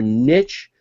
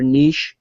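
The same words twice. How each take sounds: First: It is said the American way. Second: It is said the overseas way.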